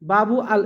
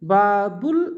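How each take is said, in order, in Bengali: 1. দুটি অংশ আলাদা শব্দ হিসেবে বলা হয়। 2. দুটি অংশ মিলে একটি শব্দ হয়ে যায়। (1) "এভাবে না" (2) "জড়িয়ে পড়বো"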